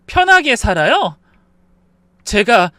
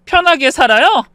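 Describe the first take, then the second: First: Raised, indignant echo; indignant disbelief. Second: Higher, sharper indignant question; escalating disbelief. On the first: Daughter-in-law answering her mother-in-law's accusation, indignant. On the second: Daughter-in-law challenging her mother-in-law once more, outraged. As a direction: push 편하게 high and forcefully, outraged. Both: A narrator's reading.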